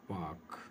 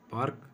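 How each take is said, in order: First: पार्क as paak, long a, no r, softer; non-rhotic pronunciation. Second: पार्क with the r rolled in, a bit higher; wrong pronunciation. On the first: Teacher giving the correct form, r silent, quietly. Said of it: "तो ये हो जाएगा पार्क". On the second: Teacher imitating how students wrongly say it, r sounded. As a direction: say पार्क with a clear r in the middle. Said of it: "हम क्या बोलते हैं". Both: Shown as a demonstration.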